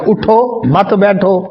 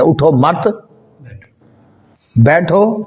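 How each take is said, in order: First: Slow اٹھو, a break, then مت بیٹھو together; pause after اٹھو. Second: اٹھو مت said together, long pause, then بیٹھو; group مت with اٹھو, then stop before a separate بیٹھو; pause after مت. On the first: Teacher showing students the other meaning, pause between اٹھو and مت بیٹھو. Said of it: "دونوں معنی ہے نا". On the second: Teacher showing students the forbidding reading, pause after مت before بیٹھو. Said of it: "اٹھنے کا حکم ہے یا اٹھنے سے منع". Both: Shown as a demonstration.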